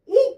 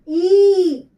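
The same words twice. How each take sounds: First: The vowel is held only briefly. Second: The vowel is drawn out for longer. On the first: "कम देर का pronunciation है" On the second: "ये और ज्यादा देर का pronunciation"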